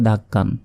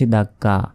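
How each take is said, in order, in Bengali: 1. শব্দটি ন-ধ্বনি দিয়ে শেষ হয়। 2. শব্দটি একটি দীর্ঘ স্বরধ্বনি দিয়ে শেষ হয়। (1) "যদি না থামি তাহলে এটাকেও বলতে হবে" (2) "এখানে আমরা থামলাম তাই এখানে বলেছি"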